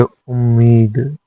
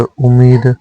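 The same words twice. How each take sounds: First: उम्मीद with doubled m, "um-meed"; correct form. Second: उम्मीद with single m, "umeed"; incorrect form. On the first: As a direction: hold the m in उम्मीद. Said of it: "शुद्ध है". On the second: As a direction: say उम्मीद without doubling m. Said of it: "अशुद्ध है". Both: Shown as a demonstration.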